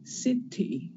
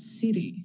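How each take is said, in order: First: The middle consonant is a clear T. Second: The middle consonant is a quick flap. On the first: "in British English, you have the T" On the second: "in American English, you have city, that flap"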